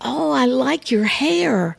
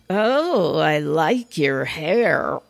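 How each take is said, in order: First: The tone is warm and sincere. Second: The tone is mocking and sarcastic. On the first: A genuine compliment. "you can say the exact same words in so many different ways" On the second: The speaker does not really like the hair. "And roll my eyes, and they get the message"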